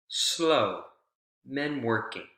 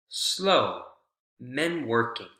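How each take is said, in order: Both takes have the same delivery.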